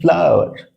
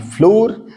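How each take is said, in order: First: The word sounds like 'flower'. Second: The word sounds like 'floor'. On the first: The speaker calls it right. "इसे कहते हैं फ्लावर" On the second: The speaker calls it wrong. "ना कि फ्लोर"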